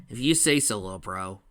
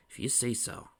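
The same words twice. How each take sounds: First: Doubtful, dropping off at the end; unconvinced. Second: Softer doubtful repeat; unconvinced. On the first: Big brother answers Tails, unconvinced. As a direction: give in without believing it. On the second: Big brother still doubts Tails, unconvinced. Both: A narrator's reading. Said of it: "not sounding convinced".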